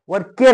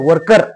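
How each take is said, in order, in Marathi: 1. शेवटचा भाग पूर्ण 'care' सारखा आहे. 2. शेवटचा भाग छोटा, हलका 'ker' आहे. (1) "वर केअर नाही"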